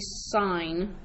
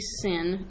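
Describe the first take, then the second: First: The vowel is long, like in line. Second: The vowel is short, like in pin. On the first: The speaker calls it right. "it is actually sine" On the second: The speaker calls it wrong. "you do not say sin"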